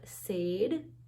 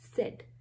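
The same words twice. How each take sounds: First: The vowel is a long a sound. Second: The vowel is a short e sound. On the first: The speaker calls it wrong. "not said" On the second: The speaker calls it right. "This is said. So we have short vowel E sound here"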